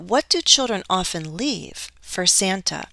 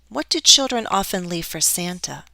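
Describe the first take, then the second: First: It is split into groups by a pause. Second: It is said in one group without a pause. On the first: "Possibly, I could do that as well" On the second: "I could read it all as one"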